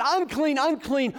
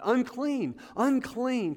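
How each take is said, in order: First: Higher, louder call of unclean; preacher voicing the leper's warning cry. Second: A higher, called-out warning; lightly voiced leper crying out; mock leper's cry. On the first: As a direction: shout the warning in full preaching voice. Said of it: "that yells out". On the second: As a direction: call it out like an outcast warning others. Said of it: "they would have to yell out".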